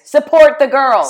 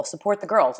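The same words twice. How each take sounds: First: Loud, high rallying cry for the slogan; excited cheer. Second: Said in the usual way. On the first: Acted. Shouts the shirt slogan again.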